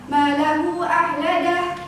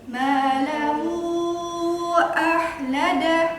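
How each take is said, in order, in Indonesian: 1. Vokal panjang itu ditahan dua ketukan. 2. Vokal panjang itu ditahan empat ketukan. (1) "Kalau bacaannya salah, ... panjang bacaannya dua harokat" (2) "Itu empat ketukan"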